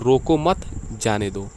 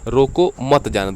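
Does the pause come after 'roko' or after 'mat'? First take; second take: after mat; after roko. First: There is a pause right after the second word. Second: There is a pause right after the first word. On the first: The person should be allowed to leave. "रोको मत, जा रहा है तो जाने दो" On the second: The person should be stopped from leaving. "यानी कि इसमें रोकना चाह रहा है किसी व्यक्ति को ये"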